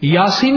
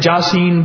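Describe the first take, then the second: First: The word begins with a Y sound. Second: The word begins with a J sound. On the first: "یاسین نہیں پڑھتے" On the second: "پشتو میں, پنجابی میں قرآن ہوتا ہے, لہجوں میں فرق ہے"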